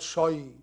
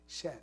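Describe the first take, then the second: First: The word ends in an 'eye' vowel. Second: The word ends in a soft 'ay' vowel. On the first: The speaker calls it wrong. "Not shy" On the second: The speaker calls it right. "An empty mouth, shay"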